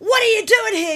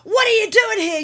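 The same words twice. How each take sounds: First: The question is said in a sharp, angry tone. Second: The question is said in a sharp, angry tone.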